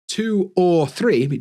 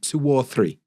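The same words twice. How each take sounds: First: The words are said separately without a linking sound. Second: A W sound links two and or. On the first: "instead of" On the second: "we had a w sound"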